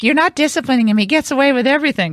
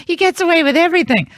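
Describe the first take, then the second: First: Higher, fast mock whine; lightly voiced jealous daughter; jealous daughter complaint. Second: Much higher exaggerated childish whine; mock-whiny daughter, high and nasal-free; hammed-up whine. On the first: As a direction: imitate a sister protesting unfairness. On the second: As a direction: ham up a sister's jealous complaint. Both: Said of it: "She's like".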